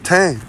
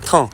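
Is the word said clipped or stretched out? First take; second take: stretched; clipped. First: It is said stretched out, local-style. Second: It is said short and clipped, France-style. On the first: "We say teint to mean their skin hue" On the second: "the way she said it was like"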